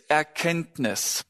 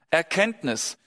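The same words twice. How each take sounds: The two takes are said the same way.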